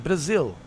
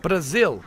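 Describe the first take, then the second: First: Brazil said again with a Brazilian B like P. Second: Brazil said with a Brazilian B like P. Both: Shown as a demonstration. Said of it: "That's how they say it".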